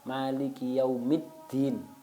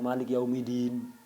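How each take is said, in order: First: A short i vowel follows Malik. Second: Malik runs straight into Yaumiddin without a vowel. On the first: The speaker calls it right. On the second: The speaker calls it wrong.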